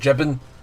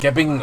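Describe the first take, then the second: First: The word begins with a soft J sound. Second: The word begins with a hard G sound. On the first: The speaker calls it wrong. "Other people will say jibbing" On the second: The speaker calls it right. "I say gib because I prefer the way it rolls off the tongue"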